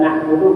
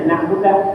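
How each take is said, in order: First: The final vowel on the d is u. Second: The final vowel on the d is a. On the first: The speaker calls it right. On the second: The speaker calls it wrong.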